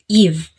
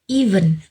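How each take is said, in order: First: The final n sound is left off. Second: The word ends with a final n sound. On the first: "the schwa vowel sound n at the end of the word is omitted" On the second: "even becomes eve"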